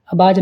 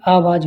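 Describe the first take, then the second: First: आवाज़ said abaaj, short a and b; wrong sounds. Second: आवाज़ said aavaaj, long aa and v; correct sounds. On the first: Teacher shows students the mistake, saying abaaj. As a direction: open आवाज़ with short a, then b. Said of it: "नहीं". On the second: Teacher corrects students, saying aavaaj. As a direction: open आवाज़ with long aa, then v. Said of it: "होता है". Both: Shown as a demonstration.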